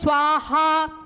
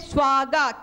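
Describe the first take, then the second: First: It is said with the Indian pronunciation. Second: It is said with the Japanese pronunciation. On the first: This is how it is said in India. "हम बोलते हैं स्वाहा" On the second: This is how it is said in Japan. "they say swaga"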